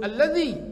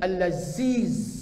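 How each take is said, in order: First: The middle consonant is a soft 'dh' sound. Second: The middle consonant is a buzzing 'z' sound. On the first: The speaker calls it right. "dia tak sebut alladhi" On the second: The speaker calls it wrong. "dia tak sebut alladhi, al-laziz"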